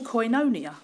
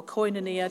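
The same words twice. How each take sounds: First: Koinonia said as koy-no-NEE-a; first pronunciation. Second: Koinonia said the other way, lower and softer; alternative pronunciation. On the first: Preacher naming his Greek word of the year, first pronunciation. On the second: Preacher offering another way to say koinonia, alternative pronunciation. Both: Shown as a demonstration. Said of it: "depends how you say it".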